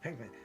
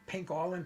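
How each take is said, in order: First: The name is said with two syllables. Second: The name is said with three syllables. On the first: The speaker calls it right. "like no, no" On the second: The speaker calls it wrong. "he mispronounces uh, names"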